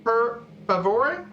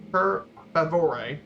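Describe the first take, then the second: First: "per favore" slow, rolled and careful; Italian per favore. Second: "Per favore" slow and deliberate; slow repeat. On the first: Presenter teaching the class Italian "please", slowly. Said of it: "please is a bit different". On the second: Presenter repeating the phrase for the class to copy. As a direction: drill "Per favore" slowly. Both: Shown as a demonstration.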